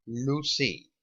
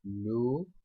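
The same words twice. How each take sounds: First: Said in the usual way. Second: "Lucy" split in two with a long gap; slow sounding-out. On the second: Shown as a demonstration. Teacher writing the example for students, slow sounding-out. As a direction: say "लू", wait, then "सी".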